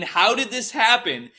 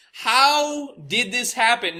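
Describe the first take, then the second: First: Slow, raised, wondering question; slow disbelief. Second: Higher, slower, drawn-out repeat of the question; stronger disbelief. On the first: Alone in a motel, stunned by the news coverage, slow disbelief. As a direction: ask it slowly, half dazed. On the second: Repeating it to himself at the TV, higher and slower disbelief. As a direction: push it up higher, stretching every word. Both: Retold or imitated. Watching CNN call him shooter.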